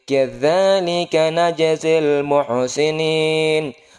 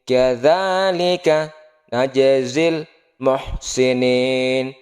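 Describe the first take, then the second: First: It is read smoothly with the parts joined. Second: It is read in separated, spelled-out chunks. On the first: "Kalau udah lancar lagi sambungkan lagi" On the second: "eja dulu, pilah-pilah dulu"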